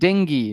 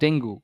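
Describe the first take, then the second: First: The word ends with an 'ee' vowel sound. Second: The word ends with an 'oo' vowel sound. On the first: The speaker calls it right. "It is pronounced as ডেঙ্গি" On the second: The speaker calls it wrong. "Not ডেঙ্গু"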